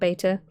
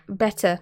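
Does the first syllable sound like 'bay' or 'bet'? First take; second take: bay; bet. First: The first syllable sounds like 'bay'. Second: The first syllable sounds like 'bet'. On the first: The speaker calls it wrong. "not beta" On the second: The speaker calls it right. "like betta"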